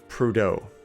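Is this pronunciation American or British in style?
American. It is said with an American English pronunciation. "if I was to say this in American English"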